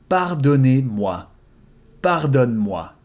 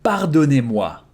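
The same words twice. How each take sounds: First: "Pardonnez-moi" slowed, each syllable clear; slow repetition. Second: Said in the usual way. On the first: Shown as a demonstration. Teacher repeating the formal form slowly, slow. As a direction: give it slowly so they can copy. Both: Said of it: "Forgive me".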